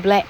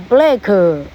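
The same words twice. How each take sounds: First: BLACK ending in an unreleased k; silent final k. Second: BLACK drawn out as "blah-kuh"; added vowel after k. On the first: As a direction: say BLACK as "bleh", tongue stopping on the k. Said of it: "就不要可". (BLACK 只念前面，不出“可”音) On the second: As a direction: say BLACK with a long "kuh" tacked on. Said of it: "black跟black的差别". (BLACK 末尾拖出“可”音) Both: Shown as a demonstration.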